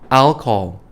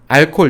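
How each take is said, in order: First: It is said with English sounds and stress. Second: It is said as flat Korean-style syllables. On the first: Native listeners would understand it. The speaker calls it right. "alcohol 해주셔야 돼요" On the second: Native listeners would not understand it. The speaker calls it wrong. "알콜 이렇게 얘기하면 못 알아듣습니다"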